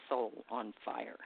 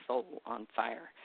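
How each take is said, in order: Both takes have the same delivery.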